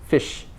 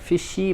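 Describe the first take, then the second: First: The word ends cleanly on the sh sound. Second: An extra vowel is added after the final sh. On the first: The speaker calls it right. "so you can end it on the sh" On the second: The speaker calls it wrong. "you don't add an extra vowel like fishy, not fishy"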